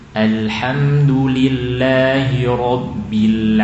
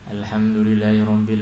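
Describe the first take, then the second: First: It is recited gently and evenly. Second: It is recited loosely with careless articulation. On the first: The speaker calls it right. "Yang bacanya lembut" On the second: The speaker calls it wrong. "Atau bermudah-mudahan"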